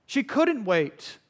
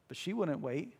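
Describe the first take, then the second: First: "couldn't" slow, higher and emphatic; stress on couldn't. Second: Said in the usual way. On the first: Real, not acted. Preacher correcting himself about her desperation, "couldn't" punched slowly. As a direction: lean hard on "couldn't", stretching it out.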